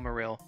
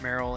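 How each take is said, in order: First: The first syllable sounds like 'Madrid'. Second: The first syllable sounds like 'merry'. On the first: It echoes the football club name it plays on. "considering the name is a play on Real Madrid, I'm pronouncing it Real Marill" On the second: This is the common everyday pronunciation. "I know a lot of people pronounce it Merrill, and that's even how I pronounce it"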